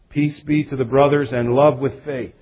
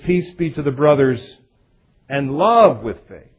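First: It is read evenly, with no special emphasis. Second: It is read with strong emphasis near the end.

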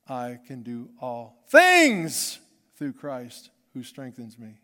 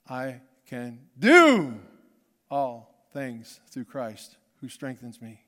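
First: The stress falls on the word "things". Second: The stress falls on the word "do".

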